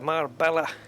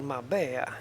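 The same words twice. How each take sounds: First: The double L is said as an L sound. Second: The double L is said as a Y sound. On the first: The speaker calls it wrong. "Don't go to Spain and say Marbella" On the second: The speaker calls it right. "Double L is pronounced like a Y in Spain"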